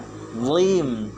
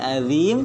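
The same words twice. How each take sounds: First: The z-like consonant is heavy and thick. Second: The z-like consonant is light and thin. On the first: The speaker calls it right. "Harusnya azim" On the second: The speaker calls it wrong. "berarti kita merubah huruf"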